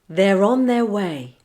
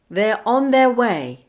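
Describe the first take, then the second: First: An R sound joins the words smoothly together. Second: The words are kept apart with no R link. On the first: "then I'll say it with the linking" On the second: "I'll say a phrase without linking"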